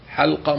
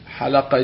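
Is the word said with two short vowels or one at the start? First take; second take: one; two. First: No vowel follows the second consonant. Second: A short vowel follows the first two consonants. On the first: It is the singular, meaning a circle or gathering. "حلقة مفرد" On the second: It is the plural, meaning people who shave. "حلقة جمع"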